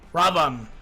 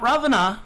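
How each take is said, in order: First: The name ends without a final vowel sound. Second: The name ends with a final vowel sound. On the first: The speaker calls it right. "You do not pronounce the A at the end" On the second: The speaker calls it wrong. "Not Ravana"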